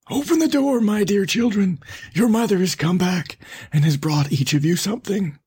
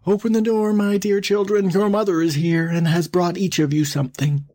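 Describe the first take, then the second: First: High, put-on hoarse wolf call; hoarse wolf posing as mother. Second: High, smoothed-out mock mother voice; softened wolf posing as mother. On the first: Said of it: "by the hoarse voice". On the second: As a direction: coax sweetly high as the disguised wolf. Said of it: "to make his voice soft". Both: A narrator's reading.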